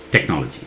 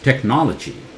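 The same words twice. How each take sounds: First: The stress is on the first syllable. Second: The stress is on the second syllable. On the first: The speaker calls it wrong. "Tech sounds louder, which is not correct" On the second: The speaker calls it right. "It was technology"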